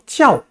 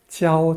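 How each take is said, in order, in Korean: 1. 이 음절은 날카롭게 떨어지는 성조입니다. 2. 이 음절은 높은 평평한 성조입니다. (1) "제사성으로 발음하기도 하고" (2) "제일성으로 발음하기도 하기 때문에"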